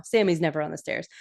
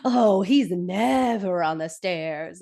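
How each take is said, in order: First: Said in the usual way. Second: Slow, drawn-out NEVER on the stairs; exaggerated slow denial, NEVER held long; LaDonna. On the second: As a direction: stretch out "never" and "stairs" in mock insistence. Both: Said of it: "And LaDonna's like".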